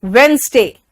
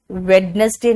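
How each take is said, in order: First: वेडनेसडे said as "wens-day", first d silent; correct pronunciation. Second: वेडनेसडे with the d sounded, "wed-nes-day"; wrong pronunciation. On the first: Teacher modelling for students to repeat, silent d. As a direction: model वेडनेसडे in two syllables. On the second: Teacher showing what is wrong, sounded d. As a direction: say वेडनेसडे in three syllables. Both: Shown as a demonstration. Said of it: "वेडनेसडे नहीं होता".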